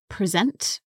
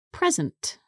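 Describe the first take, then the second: First: "present" stressed on the second syllable; verb stress. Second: "present" stressed on the first syllable, high then falling; noun stress. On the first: Teacher introducing the verb, "present" stressed at the end. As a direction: say "present" as the verb, pre-ZENT. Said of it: "it's a verb". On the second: Teacher showing the noun form, "present" stressed up front. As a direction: say "present" as the noun, PRE-zent. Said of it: "can also be a noun". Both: Shown as a demonstration.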